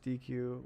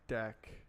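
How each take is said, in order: First: It is said as two letter sounds, dee-queue. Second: It is said as one syllable, deck. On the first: The speaker calls it wrong. "people pronounce D Q as D Q" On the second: The speaker calls it right. "it should be pronounced as deck"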